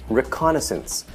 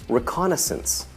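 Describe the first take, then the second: The two takes are said the same way.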